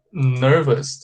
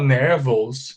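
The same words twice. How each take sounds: First: NERVOUS as "NUR-vus", reduced second vowel; correct pronunciation. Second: NERVOUS as "nehr-VOHS", full O in the ending; student's mispronunciation. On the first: Shown as a demonstration. Teacher shows how we say it, carefully. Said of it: "pay attention to the pronunciation of this word. We say". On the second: Retold or imitated. Teacher imitates students who say it wrong, mispronounced. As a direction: say "nervous" wrongly, with an open e and "vous". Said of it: "Tem aluno que fala".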